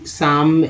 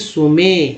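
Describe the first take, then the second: First: The word sounds like sahm, with a long vowel. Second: The word sounds like soo-may, with two syllables. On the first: "न कि साम साम" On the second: "न कि सुमे"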